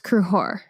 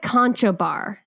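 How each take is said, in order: First: The name is said in two syllables, 'Cru-hor'. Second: The name is read as spelled, in three syllables. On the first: The speaker calls it right. "but it's pronounced Cruhor" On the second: The speaker calls it wrong. "it's spelled like Concho Bar"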